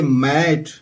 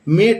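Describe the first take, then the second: First: The vowel sounds like the one in 'bad'. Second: The vowel sounds like the one in 'bed'. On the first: The speaker calls it right. "इसको पढ़ेंगे मैट" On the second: The speaker calls it wrong. "इसको मेट नहीं पढ़ेंगे"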